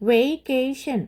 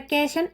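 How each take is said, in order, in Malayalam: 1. ആദ്യ സ്വരം ദീർഘമായ 'ay' ശബ്ദമാണ്. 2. ആദ്യ സ്വരം ഹ്രസ്വമായ 'e' ശബ്ദമാണ്. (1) "മനസ്സിലായല്ലോ എങ്ങനെയാ പറയേണ്ടതെന്ന്?" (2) "അല്ലാതെ വെക്കേഷൻ എന്നല്ല"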